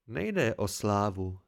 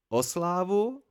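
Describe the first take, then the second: First: "Nejde" weighted, the whole phrase lower and slow; grim. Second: "slávu" lifted high in a rising, disbelieving question; incredulous question. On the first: Kvothe corrects the scribe about fame, grim and slow. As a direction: say "Nejde o slávu" heavily and slowly, darkening it. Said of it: "pravil ponuře Kvot". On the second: Scribe questions Kvothe's offer of fame, incredulous rising tone. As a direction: echo "O slávu?" back with higher pitch, as if you can't believe it. Chronicler asks back about fame. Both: A narrator's reading.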